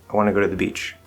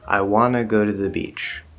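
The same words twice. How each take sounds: First: The sentence is spoken at a faster pace. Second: The sentence is spoken at a slower pace.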